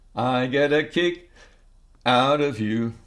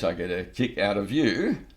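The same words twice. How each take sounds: First: There is a breath pause after 'kick'. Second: It flows as one phrase without a break. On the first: "it just works better if I take a breath" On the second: "you could think of it as one phrase"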